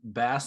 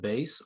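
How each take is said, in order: First: The vowel sounds like in the fish word. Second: The vowel sounds like in the music word. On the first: It is the regional country way of saying it. "purposely saying bass ... the way you say it in Mississippi" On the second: It is the usual way of saying it. "instead of bass"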